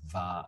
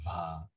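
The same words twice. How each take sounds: First: The syllable is said with a plain voice. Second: The syllable is said with a breathy voice.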